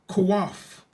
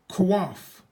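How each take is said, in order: Both takes have the same delivery.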